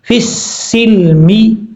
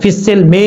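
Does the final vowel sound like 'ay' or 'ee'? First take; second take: ee; ay. First: The final vowel sounds like 'ee' in 'see'. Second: The final vowel sounds like 'ay' in 'say'. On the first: The speaker calls it right. "मीम जेर मी" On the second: The speaker calls it wrong. "फिसिल में नहीं पढ़ना"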